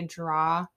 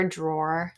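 First: "draw" with no final R; dropped R. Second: "drawer" with its final R sounded; R pronounced. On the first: Disliking how locals talk, "draw" without the R. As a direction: say "draw" open-ended, rhyming with "saw". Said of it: "when people say". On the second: Correcting the local form, "drawer" with the R. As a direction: finish "drawer" on an R. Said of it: "when people say "draw" for drawer". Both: Shown as a demonstration.

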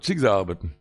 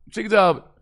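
First: "Schick" hit, the rest low and quiet; stress on schick. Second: "sie" pushed up high, "schick" light; stress on sie. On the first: Rabbi weighing the phrase, stress on "Schick". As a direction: lean on "Schick", let "sie arbeiten" fall away. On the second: Rabbi rereads the phrase, stress on "sie". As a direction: lift and press the word "sie". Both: Shown as a demonstration.

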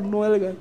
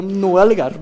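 First: Much softer, calming himself; soft self-restraining mantra; muttered to himself. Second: Said in the usual way. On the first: Retold or imitated. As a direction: repeat it under the breath to stay calm. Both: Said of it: "Y yo era".

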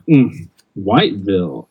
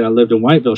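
First: Lightly snide "Mm", then stress on both halves of Whiteville; snide comment. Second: Said in the usual way. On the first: Retold or imitated. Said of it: "this, this snide comment". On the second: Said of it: "when he said".

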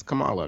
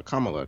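First: First "Kamala" as kuh-MAH-luh; ka-MAH-la pronunciation. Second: "Kamala" as KAH-muh-luh; KAH-ma-la pronunciation. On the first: Co-host wavering between versions, "Kamala" as kuh-MAH-luh. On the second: Co-host wavering between versions, "Kamala" as KAH-muh-luh. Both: Shown as a demonstration. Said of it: "going back and forth between".

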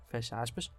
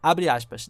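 First: Soft, dropped close quote; dictating. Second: Loud, punched abre aspas; dictating. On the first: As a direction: drop the voice on fecha aspas. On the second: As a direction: announce abre aspas clearly. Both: Shown as a demonstration.

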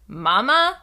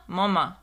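First: "Mama" high and loud with a rising end; imitated toddler tone. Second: "mama" at usual pitch, dropping at the end; imitated other tone. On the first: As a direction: lift "Mama" like a question, louder. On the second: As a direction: let "mama" fall like a plain statement. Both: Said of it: "a different tone to his voice when he says mama".

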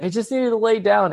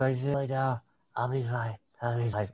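First: Higher-pitched tipsy teacher imitation; intoxicated mock voice, pitched up; drunk and high. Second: Soft, slurred tipsy mumble; fading drunk imitation, very quiet; drunk and high. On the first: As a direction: mimic a woozy, high colleague. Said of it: "sounded, like, fully drunk and high". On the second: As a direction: mimic someone woozy, barely audible. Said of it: "like, fully drunk and high".

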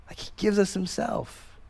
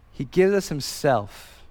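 First: Repeated much softer, almost to himself. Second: Said in the usual way. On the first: Shown as a demonstration. Pastor repeating the point to the congregation, much softer. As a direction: let the repeat fall soft and intimate.

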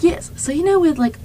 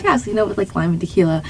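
First: High-pitched, badly faked British; attempted British accent. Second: Said in the usual way. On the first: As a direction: imitate a British friend, not very convincingly. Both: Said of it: "I can't keep going with this".

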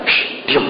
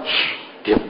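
First: A stronger whispered shush, still soft; firmer whisper. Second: Whispered shush, much softer; hushing whisper. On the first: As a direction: hush harder but stay whispering. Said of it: "Orang tuanya tambah kenceng". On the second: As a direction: hush the child in a sharp whisper. Parent hushing child in sermon. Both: Retold or imitated.

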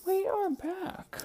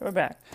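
First: Much higher, slow, drawn out; sing-song return. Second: Said in the usual way. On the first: Acted. Back from the break, greeting viewers in a high sing-song. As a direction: announce it in a silly high voice.

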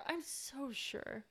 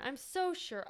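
First: Slow, soft, drawn-out sarcastic drawl. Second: Said in the usual way. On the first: Shown as a demonstration. Friend mocking the on-screen romance, slow sarcasm. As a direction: drag it out, deeply unconvinced.

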